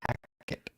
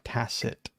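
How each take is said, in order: First: The middle consonant is a K sound. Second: The middle consonant is not a K sound. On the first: The speaker calls it right. "Tackett should have a K in it" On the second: The speaker calls it wrong. "not Tacit"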